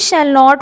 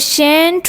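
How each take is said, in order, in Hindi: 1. दोनों शब्द पूरे और अलग-अलग बोले जाते हैं। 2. ये शब्द एक ही अक्षर में सिकुड़कर बोले जाते हैं। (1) "full form of shall not" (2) "short form of या weak form of shall not"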